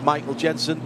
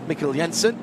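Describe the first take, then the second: First: The first name sounds like English Michael. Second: The first name sounds like Mikkel. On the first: The speaker calls it right. "that is how you say it" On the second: The speaker calls it wrong.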